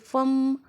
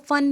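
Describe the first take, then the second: First: The word ends with an m sound. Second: The word ends with an n sound. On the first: The speaker calls it right. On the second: The speaker calls it wrong.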